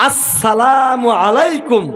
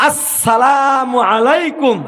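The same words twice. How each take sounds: No difference in how they are said.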